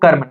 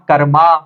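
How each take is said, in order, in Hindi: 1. शब्द का अंत व्यंजन m पर होता है। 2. शब्द के अंत में एक अतिरिक्त 'a' स्वर जुड़ा है। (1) "तो हम पढ़ते हैं इसको कर्म" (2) "नॉट कर्मा, तो ए यहाँ पे साइलेंट रहेगा"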